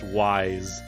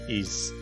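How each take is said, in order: First: The name sounds like the word 'wise'. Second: The name does not sound like 'wise'. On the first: "which I'm pretty sure would be pronounced Wise" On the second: "I'll pronounce it as Ys"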